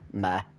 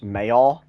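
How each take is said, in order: First: It is said as one syllable, local style. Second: It is said with two syllables, standard style. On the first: This is how people say it where the speaker lives. "because of where we live, Meh" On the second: This is the usual pronunciation. "it's probably pronounced Mayor"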